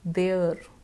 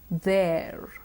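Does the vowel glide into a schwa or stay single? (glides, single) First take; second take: single; glides. First: The vowel stays single without gliding. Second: The vowel glides from e into a schwa. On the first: The speaker calls it wrong. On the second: The speaker calls it right.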